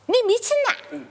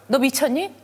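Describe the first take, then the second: First: It is said in a regional dialect, sounding warm. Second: It is said in Seoul speech, sounding cold. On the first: The speaker is being affectionate while scolding. "뭐 이러면 좀 따뜻하잖아" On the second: The speaker is being cold and distant. "이러면 좀 따뜻해 보이진 않는 거죠"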